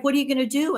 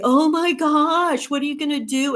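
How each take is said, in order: First: Said in the usual way. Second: Hammed-up dismay at someone having no insurance; mock alarm. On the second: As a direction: stretch out the shocked question like a fretting acquaintance. People reacting with alarm.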